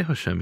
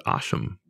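First: Said in the usual way. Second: Hashem whispered, softer and unvoiced; Samaritan way of saying it. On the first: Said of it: "He said Hashem". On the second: Shown as a demonstration. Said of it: "But he didn't say Hashem".

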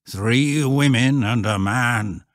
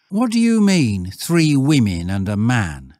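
First: Slow, drawn-out rustic pronouncement; raised voice, spelling out a warning; ominous old shepherd. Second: Put-on loud boy's query, starting high; challenging schoolboy. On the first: Acted. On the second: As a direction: lad demanding an explanation. Stanley challenges the shepherd.

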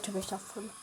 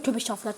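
First: "tövbe estağfurullah" repeated much softer, fading away. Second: Said in the usual way. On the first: Acted. Calming himself after the scare, a much softer repeat. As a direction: let the second "tövbe estağfurullah" die to a hush.

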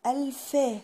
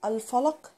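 First: الفا with a long open a, wrong; wrong vowel demo. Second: الفلق with a short fa and a clear qaf; right vowel demo; correct falaq. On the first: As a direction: mispronounce الفا drawn out. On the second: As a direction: say الفلق crisply, rising. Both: Shown as a demonstration. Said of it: "ما أقولش الفا".

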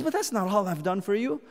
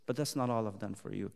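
First: Said in the usual way. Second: Much lower and softer, quicker; quiet confiding preacher; hushed. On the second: Acted. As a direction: murmur it close, x1.4. Hushed repeat.

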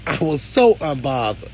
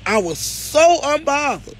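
First: Said in the usual way. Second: "so" stretched out on a high pitch; emphatic SO. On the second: Real, not acted. Telling followers the gossip failed, "so" held high and emphatic. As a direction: draw out "so" high and slow. Repeated higher and slower for emphasis.

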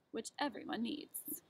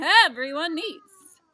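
First: Sly little whispered aside. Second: Full-throated slow furious shout; mad shout. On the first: A narrator's reading. Narrator confiding to listeners, whispered aside. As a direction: hush it like a secret to the listener. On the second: Acted. Onceler raging at the Lorax, slow furious bellow. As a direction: bellow it, dragging the words out. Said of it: "I got terribly mad".

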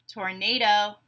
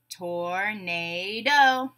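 First: Said in the usual way. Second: "Tornado" very slowly, tor-na-do; three long separate beats on "Tornado"; syllable by syllable. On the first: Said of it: "I'll say a word". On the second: Shown as a demonstration. Teacher breaking a word into syllables, beat by beat. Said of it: "we'll break it into syllables".

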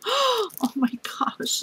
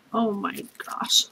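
First: Slow, high drawn-out oh my gosh; amazed by yet another gift; high awed exclamation. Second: Slow, soft whispered oh my gosh; whispered disbelief; awed whisper. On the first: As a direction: let it float up in amazement. Overwhelmed after gasp. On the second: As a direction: hush it out in awe. Overwhelmed by gifts. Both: Real, not acted.

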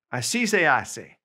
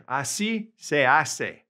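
First: Said in the usual way. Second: Slow clear model. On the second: Shown as a demonstration. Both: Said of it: "we can say in Spanish".

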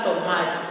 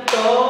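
First: Said in the usual way. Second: "tomate" split slowly into to, ma, te; syllable by syllable. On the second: Shown as a demonstration. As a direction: say "tomate" in three separate beats, pausing after each. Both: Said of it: "Lê devagar".

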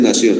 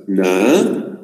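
First: Said in the usual way. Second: "Nación" as a drawn "Na", a long pause, then "ción"; split into syllables. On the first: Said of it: "Vamos a hacer nación". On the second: Shown as a demonstration. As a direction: break "Nación" in two, Na... ción, io in one beat. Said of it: "Voy a separar en sílabas".

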